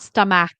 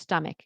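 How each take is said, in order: First: The last syllable does not sound like 'ick'. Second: The last syllable sounds like 'ick'. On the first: The speaker calls it wrong. "it's not stomach" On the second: The speaker calls it right. "It's like ick"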